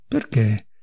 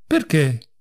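First: Soft, low-pitched, gentle asking; gentle question. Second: Understated indignant retort; angry cry. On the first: Doctor gently questioning the raging patient, soft. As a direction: ask it mildly and quietly. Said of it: "domandò dolcemente". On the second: Patient echoing the doctor's question, mild angry cry. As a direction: throw the question back, mildly indignant. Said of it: "gridò Ivan Dmitrich". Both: A narrator's reading.

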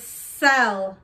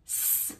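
First: Said in the usual way. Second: "S-E-L" as three separate sounds, sss, eh, lll. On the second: Shown as a demonstration. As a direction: sound out "S-E-L" slowly, not letter names. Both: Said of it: "What's the middle?".

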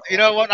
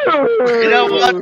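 First: Said in the usual way. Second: Drawn-out camp voice. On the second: Acted. Slow drawn-out high voice.

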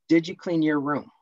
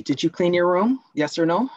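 First: Said in the usual way. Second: Pushy parent, pitch raised, louder; demanding parent. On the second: Acted. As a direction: press the child for a yes or no. Role-play asking Tony as parent.

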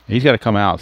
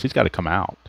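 First: Emphatic repeat. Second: Said in the usual way. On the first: Shown as a demonstration.

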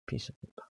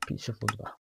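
First: Breathy unvoiced whisper of the word; whispered repeat. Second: Said in the usual way. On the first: Real, not acted. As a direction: say it again under your breath. Checks difficulty, repeats it.

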